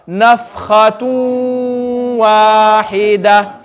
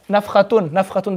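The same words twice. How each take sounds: First: Nafkhatun wahida very slow, noon merged into wahida with a nasal hum; with ghunna. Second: Nafkhatun softly with a clear n at the end; wrong way, noon said. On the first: Teacher leads the class, slow ghunna. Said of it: "read it with the ghunna". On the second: Teacher shows the wrong pronunciation, clear noon. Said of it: "I'm not going to say nafkhatun". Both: Shown as a demonstration.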